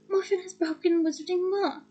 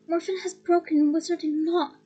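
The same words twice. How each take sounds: First: It is said in a mocking, pompous tone. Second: It is said sternly in Ogden's voice.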